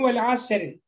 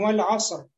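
First: The r is thin and light. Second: The r is heavy and full. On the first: The speaker calls it wrong. "Не говорим «валь аср»" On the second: The speaker calls it right. "а говорим «валь аср». Ро. Там будет муфахум... Там широкое"

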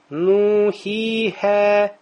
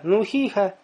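First: The vowels are held very long. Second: The vowels are held moderately long. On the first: "как в Коране, когда мы читаем" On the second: "Ты будешь говорить"

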